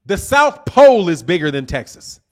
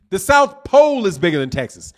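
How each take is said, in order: First: "Pole" hit hardest with a falling tune; stress on pole. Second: "South" hit hardest with a falling tune; stress on south. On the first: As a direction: lean on "Pole" in "The South Pole". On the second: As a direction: lean on "South" in "The South Pole". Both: Real, not acted.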